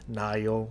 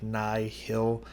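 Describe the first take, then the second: First: It sounds like the river name Nile. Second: It does not sound like the river name. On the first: The speaker calls it right. "I'm assuming it's Nile, kind of like the River Nile" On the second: The speaker calls it wrong. "Like I don't think it's Nihil"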